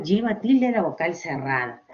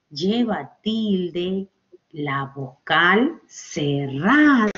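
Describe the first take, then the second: First: Said in the usual way. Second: Very slow, word by word with pauses; slow emphatic rule. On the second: Shown as a demonstration. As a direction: stretch each word out for the class. Teacher slowly spells out the rule.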